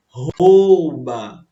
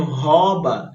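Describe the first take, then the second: First: Rouba with a drawn-out ou diphthong; stretched, louder ou in "rouba"; correct pronunciation demo. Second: Rouba with a plain o and no u glide; the incorrect "rouba", monophthong o; wrong pronunciation demo. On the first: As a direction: say "rouba" slowly as ho-u-ba. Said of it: "ela tende a dizer que é rouba". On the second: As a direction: say "rouba" as hoba, dropping the u. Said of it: "Não, o menino rouba". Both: Shown as a demonstration.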